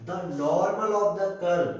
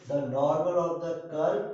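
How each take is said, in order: First: Slow, louder, each word drawn out: "the normal of the curve"; stressed phrase. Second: Said in the usual way. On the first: Shown as a demonstration. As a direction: lean hard on "the normal of the curve" so it sinks in. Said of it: "तो जरा ध्यान देना". ("the normal of the curve" को धीरे और ज़ोर देकर खींचकर बोलें) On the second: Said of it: "ध्यान देना यहाँ पर को".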